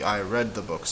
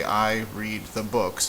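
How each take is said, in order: First: "read" said as red; I "read" with a short e sound; "read" rhymes with bed; past tense read. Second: "read" said as reed; I "read" with a long ee sound; "read" rhymes with need; present tense read. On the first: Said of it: "it could be". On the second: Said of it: "pronounced read or read". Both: Shown as a demonstration.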